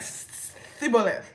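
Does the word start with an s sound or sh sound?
s. The word begins with a plain s sound.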